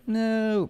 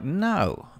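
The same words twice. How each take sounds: First: The voice rises at the end, like a question. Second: The voice falls at the end, firm and final.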